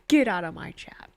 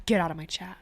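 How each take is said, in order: First: Breathy mock whisper, playful. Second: Said in the usual way. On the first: Streamer teasing a Niners fan in chat, whispering.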